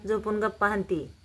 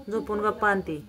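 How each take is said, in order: Both takes have the same delivery.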